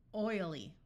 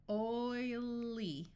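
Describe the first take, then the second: First: Said in the usual way. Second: Oily drawn out slowly, sound by sound. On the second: Shown as a demonstration. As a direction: stretch out Oily into its parts.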